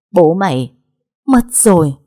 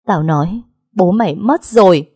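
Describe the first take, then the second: First: Choking out the news between sobs; sobbing news of death. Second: Scolding stepmother. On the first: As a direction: voice rising and breaking on mất. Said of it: "những tiếng nấc nhẹ". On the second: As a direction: snap the news back at her. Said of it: "tiếng mắng nhiếc". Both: A narrator's reading.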